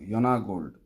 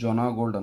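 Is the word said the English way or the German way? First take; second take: German; English. First: It is pronounced the German way. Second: It is pronounced the English way. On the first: The speaker calls it right. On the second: The speaker calls it wrong.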